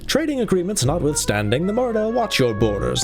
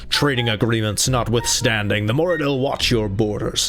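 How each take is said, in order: First: Read in the put-on voice of one character. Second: Read in the put-on voice of another character. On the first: The speaker calls it wrong. "this is Makala talking" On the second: The speaker calls it right. "I'm going to reread it in his voice"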